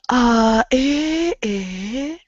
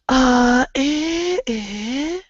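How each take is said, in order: The two takes are said the same way.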